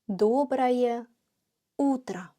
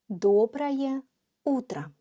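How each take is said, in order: First: It is said much more slowly and carefully. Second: It is said at a normal speaking pace.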